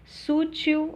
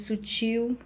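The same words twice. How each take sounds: First: "Sútil" stressed on SÚ; stress pulled back. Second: "sutil" stressed on TIL; final stress. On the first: Teacher showing retracted accent, "Sútil" stressed on SÚ. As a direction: punch the first syllable of "Sútil". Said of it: "ao invés de sutil". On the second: Teacher giving the standard form, "sutil" stressed on TIL. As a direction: lean on the last syllable of "sutil". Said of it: "ao invés de". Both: Shown as a demonstration.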